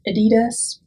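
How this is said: The name is said with an English pronunciation. "For American speakers or English speakers, you often will call it Adidas"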